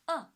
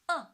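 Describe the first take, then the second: First: The pitch falls sharply from high to low. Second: The pitch falls sharply from high to low.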